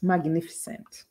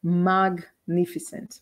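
First: "Magnificent" slow but in one piece; joined-up pronunciation. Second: "Magnificent" very slow, pausing after "Mag"; broken-up pronunciation. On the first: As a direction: say "Magnificent" softly, slowly, without a break. ("Magnificent" inteiro, devagar, sem pausa) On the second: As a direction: split "Magnificent" as Mag, then nificent. ("Magnificent" bem devagar, pausa depois de "Mag") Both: Shown as a demonstration. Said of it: "a gente vai trabalhar a pronúncia".

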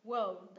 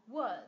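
First: "World" with a curled L closing on D; L then D. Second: "word" ending straight on D, without any L. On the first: Teacher contrasting two words, "World" with its L. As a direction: say "World" keeping the L audible. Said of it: "cong lưỡi lên này". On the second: Teacher contrasting two words, "word" without L. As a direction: say "word" with only the final D. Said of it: "không có L nữa". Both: Shown as a demonstration.

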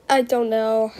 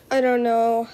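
No difference in how they are said.

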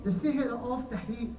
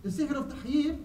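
First: "tahyil" said slowly and unclearly in a first try; a slow first attempt at "tahyil" before correcting it. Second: "tahyil" said clearly as "ta-hil", with a rising finish; a careful restated "tahyil" with a rising end; corrected term. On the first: Preacher slowly tries the term "tahyil" for his brothers. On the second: Preacher restates "tahyil" clearly for the brothers, rising. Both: Shown as a demonstration. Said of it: "uh, tahyil".

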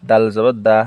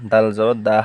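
No difference in how they are said.

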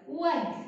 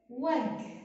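First: A bit louder on وجه, as asked. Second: Said in the usual way. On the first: Shown as a demonstration. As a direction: call out وجه a little louder. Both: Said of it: "صوت أعلى".

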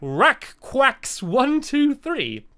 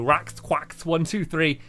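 First: Rakquaks one two three, sounded out very slowly syllable by syllable; careful pronunciation. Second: Rax Quacks one two three, said slowly with each part separated; slow, deliberate Rax Quacks with a clear pause between Rax and Quacks; careful pronunciation. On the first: Reading a fan's username aloud to viewers, slow careful sounding-out. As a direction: spell out Rakquaks slowly, testing each sound. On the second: Thanking a fan by username, slow careful pronunciation. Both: Shown as a demonstration. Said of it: "I'm gonna try and pronounce this".

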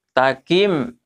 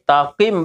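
First: Takim with k a little forward in the mouth; front kaf. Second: Takim with k pushed back into a q; back qaf. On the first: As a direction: make the k of "Takim" light and forward. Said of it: "agak di muka sedikit". (Takim dengan kaf agak di muka) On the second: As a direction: move the k of "takim" back to the uvula. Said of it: "belakangnya sedikit". (takim dengan qaf lebih di belakang) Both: Shown as a demonstration.

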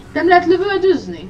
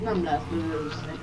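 First: "Nem lehet lövöldözni?" asked high and loud, stress on "lehet"; indignant question. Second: Said in the usual way. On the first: Real, not acted. Gamer asks indignantly whether shooting is allowed. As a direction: bark the question in disbelief.

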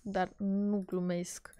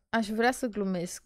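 First: Whispered, dead serious. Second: Said in the usual way. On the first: Real, not acted. Vlogger insisting she isn't joking, whispered. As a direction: drop to a grim whisper.

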